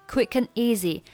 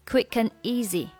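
Both takes have the same delivery.

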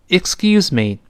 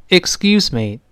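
The two takes are said the same way.

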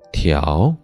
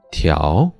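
Both takes have the same delivery.

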